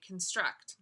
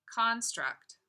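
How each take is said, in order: First: Construct stressed on the second syllable, con-STRUCT; verb stress conSTRUCT. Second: Construct stressed on the first syllable, CON-struct; noun stress CONstruct. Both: Shown as a demonstration. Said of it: "Or you could say construct".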